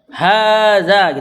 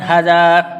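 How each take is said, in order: First: The first vowel is drawn out long. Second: The first vowel is cut short. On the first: The speaker calls it right. "tetap dibaca mat. Hadza gitu ya" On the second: The speaker calls it wrong. "bukan hadza"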